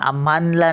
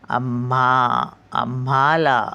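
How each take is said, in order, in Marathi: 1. 'la' च्या आधी अतिरिक्त 'n' आवाज येतो. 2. 'la' च्या आधी अतिरिक्त 'n' आवाज येत नाही. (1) "आम्हानला नाही बोलायचं" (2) "आम्हाला असं बोलायचं"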